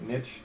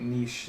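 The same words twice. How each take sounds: First: The word gets a plain, everyday pronunciation. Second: The word gets a posh, refined-sounding pronunciation. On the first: It is the ordinary, unpretentious way to say it. "I typically pronounce it niche" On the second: It comes across as a bit pretentious. "a little like like pinky in the air"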